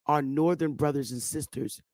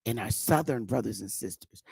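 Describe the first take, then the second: First: "northern" gets the weight of the phrase; stress on northern. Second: "southern" gets the weight, then a falling finish; stress on southern. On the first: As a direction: lean on "northern" in "our northern brothers and sisters". Contrasting northern with southern. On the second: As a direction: lean on "southern", falling at the end. Contrasting southern with northern. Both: Shown as a demonstration.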